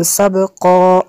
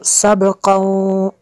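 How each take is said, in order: First: "सबक़ा" ending on a long open vowel; pausal ending. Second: "सबक़ौ" gliding into a held nasal w; continuing ending. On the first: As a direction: stop on "सबक़ा" with a plain held final vowel. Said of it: "वक्फ करेंगे तो सबक़ा ऐसे पढ़ेंगे". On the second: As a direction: draw out "सबक़ौ" to a humming -ow, ready to join on. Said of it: "वक्फ नहीं करेंगे तो सबक़ौ ऐसे". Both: Shown as a demonstration.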